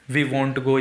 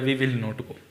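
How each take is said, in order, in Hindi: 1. संक्षिप्त रूप 'won't' बोला जाता है। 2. पूरा रूप 'will not' बोला जाता है। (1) "इस टाइप से आप विल नॉट को वॉन्ट बोला जाता है बोलने में" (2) "बाकी तो विल नॉट भी बोलोगे तो चलेगा"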